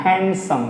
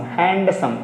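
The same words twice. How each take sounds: First: हैंडसम said as "hensum" with the d silent; correct model. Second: हैंडसम said with a clear d, "hand-sum"; wrong model. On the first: Teacher giving the right way to say handsome. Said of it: "इसको हैंडसम बोलते हैं". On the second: Teacher showing the common student mistake, d pronounced. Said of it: "ये गलत है". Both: Shown as a demonstration.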